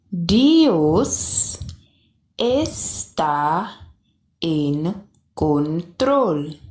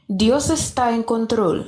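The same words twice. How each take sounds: First: The phrase is spoken slowly. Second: The phrase is spoken at a normal speed. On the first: "then I will say it slowly" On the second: "I will say it at a normal pace at first"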